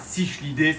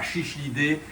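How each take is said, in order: First: It starts with s, then a sh sound. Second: It starts with sh, then another sh. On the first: "C'est pas cichlidés" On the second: "c'est pas chichlidés"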